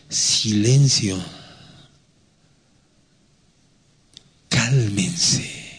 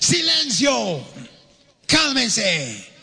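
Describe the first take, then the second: First: It is said softly and gently. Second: It is said forcefully, as an exclamation.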